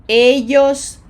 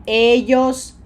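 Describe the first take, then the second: The two takes are said the same way.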